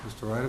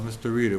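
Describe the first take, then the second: First: "Ryder" said with a long i, as in "ride"; mispronounced surname. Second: "Reader" said with a long ee, as in "read"; corrected surname. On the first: Chair calls the next appointee up, mispronouncing "Ryder" with an EYE sound. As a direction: say "Ryder" with an EYE vowel in the first syllable. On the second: Chair addresses the appointee after being corrected, saying "Reader" with EE. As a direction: say "Reader" with an EE vowel in the first syllable. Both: Real, not acted. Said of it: "it's pronounced Reader".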